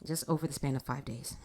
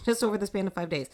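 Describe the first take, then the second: First: Said in the usual way. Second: Laughing faster repeat; incredulous quick repeat; amused, faster retake. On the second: Shown as a demonstration. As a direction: toss it off quicker with a grin.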